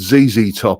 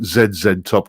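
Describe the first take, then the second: First: The letter Z is said as 'zee'. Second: The letter Z is said as 'zed'. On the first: This is the newly learned way of saying it. "See, I'm learning. I said Z Z Top" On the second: This is the speaker's habitual way of saying it. "I often pronounce it Z Z Top because it's just instinct"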